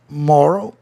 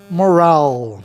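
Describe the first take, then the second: First: "moral" stressed on the first syllable; "moral" with a reduced second syllable; first word. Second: "moral" stressed on the last syllable; "moral" like morale, ending drawn out; second word. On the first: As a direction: say "moral" as MOR-al, weak ending. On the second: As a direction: say "moral" as mor-AL, full final vowel. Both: Shown as a demonstration. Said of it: "Tem dois significados".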